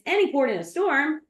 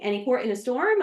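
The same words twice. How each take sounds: First: The voice falls at the end like a statement. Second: The voice rises at the end like a question. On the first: It is stated as an acceptance of any help. The speaker calls it right. "it's not a question" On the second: It is asked as a question. The speaker calls it wrong. "she thought it was a question"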